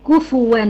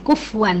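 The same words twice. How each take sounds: First: كفوا said kufuwan with a clear u on the ف; Hafs reading with damma. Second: كفوا said kufwan with no vowel on the ف; wrong sukun reading. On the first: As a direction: stress the damma in كفوا, ku-fu-wan. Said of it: "هي مضمومة". (كفوا بضم الفاء على رواية حفص) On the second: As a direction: clip the ف silent in كفوا, kuf-wan. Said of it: "بيعملوها للساكن". (كفوا بتسكين الفاء خطأً) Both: Shown as a demonstration.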